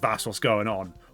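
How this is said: It is said in a Norfolk accent, run together. "almost like it's one big word"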